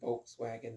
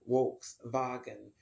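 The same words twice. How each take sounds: First: It begins with a V sound, middle W sound. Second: It begins with a W sound, middle V sound. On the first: This is how the name is said in America. "in America, we pronounce it Volkswagen. That's how it looks" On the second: This is how the name is said in other countries. "the V is pronounced as a W and the W is pronounced as a V"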